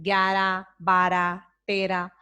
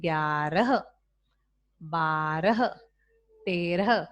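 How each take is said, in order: First: ग्यारह बारह तेरह clipped, final ह dropped; ग्यारह, बारह, तेरह said gyara, bara, tera; wrong pronunciation demo. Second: ग्यारह बारह तेरह with the final ह sounded, gyarah; careful teacher's ग्यारह, बारह, तेरह, h breathed at the end; lower, deliberate ग्यारह, बारह, तेरह with full ह; correct pronunciation demo. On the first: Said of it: "ये अशुद्ध भाषा है". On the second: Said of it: "इसका शुद्ध उच्चारण होता है". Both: Shown as a demonstration.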